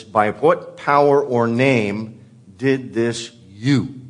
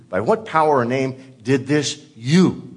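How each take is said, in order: First: Slow, deliberate, every word spaced out; slow Greek word order. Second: "you" landed hard at the end; emphasis on you. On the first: Preacher reads the Greek order slowly to the congregation, deliberate. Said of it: "The Greek puts it like this". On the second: Preacher repeats the Greek line stressing "you" to the congregation. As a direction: lean on "you" as the accusation. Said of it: "The emphasis here is on you". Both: Shown as a demonstration.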